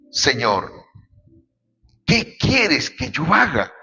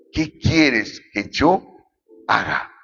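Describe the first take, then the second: First: Slow, hushed plea of a shaken man; a touch of trembling awe, drawn out; trembling and fearful. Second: Slow, fading question in mild awe; trembling and fearful. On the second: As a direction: let the question sink away, understated fear. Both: A narrator's reading. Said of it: "él temblando y temeroso dijo".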